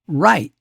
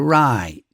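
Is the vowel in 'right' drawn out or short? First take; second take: short; drawn out. First: The vowel is short and flat. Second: The vowel is long and curved in pitch.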